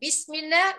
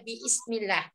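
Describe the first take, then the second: First: The 'b' runs straight into 'ismillah' as one syllable. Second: The vowel after 'b' is sounded as a separate syllable. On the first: "lebih mudah" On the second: "daripada biismillah"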